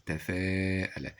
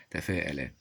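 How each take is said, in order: First: Very slow, drawn-out تفاءل; sounded out. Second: Said in the usual way. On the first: Shown as a demonstration. Teacher showing alif before hamza, تفاءل slowly stretched. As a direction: hold the long alif in تفاءل.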